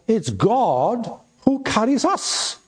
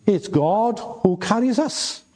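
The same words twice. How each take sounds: First: High, slow stress on "who", pitch rising; preacher's slow, soaring "God who carries us"; emphatic stress. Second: High, rising stress landing on "carries"; preacher's restated line, weight on "carries". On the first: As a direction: lift "who" way up and draw it out. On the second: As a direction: repeat it, this time leaning on "carries". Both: Shown as a demonstration. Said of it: "but it's God who carries us".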